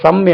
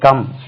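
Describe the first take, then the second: First: The word begins with an s sound. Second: The word begins with a k sound. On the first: The speaker calls it wrong. "தெரியாம இருந்தா இந்த இடத்துல சம் என்று சொல்லுவோம்" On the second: The speaker calls it right. "இந்த இடத்துல கா என்று உச்சரிக்குது"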